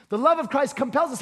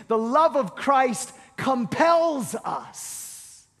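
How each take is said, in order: First: Brisk run-through of the phrase; rapid, even recap; quick restatement. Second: "compels us" drawn out slowly; deliberate, half-speed scripture quotation; slow emphatic quote. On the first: Real, not acted. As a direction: repeat it quickly without dwelling on "compels". Quick repeat of the quote. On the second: Acted. Quotes scripture for emphasis, then repeats.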